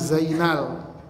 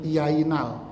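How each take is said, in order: First: The name begins with a z sound. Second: The name begins with a y sound. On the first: "Namanya Zainal" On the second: "Orang-orang Jawa Tengah Z itu jadi Y"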